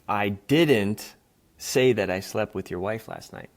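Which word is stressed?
didn't. The stress is on the word didn't.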